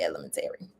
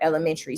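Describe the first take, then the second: First: The word follows its written form closely. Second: The word departs from its written form. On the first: The speaker says it this way. "it is literally written out elementary, so I pronounce it elementary" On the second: Other people say it this way. "for those who pronounce it that way"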